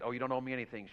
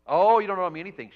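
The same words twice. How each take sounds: First: Said in the usual way. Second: High, loud imitated wail on the "oh"; hammed-up tearful outburst, rushed after the wail; mock crying. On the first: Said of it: "Teresa said". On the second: Friend refusing payment for the vet, mock crying. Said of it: "She got, started crying".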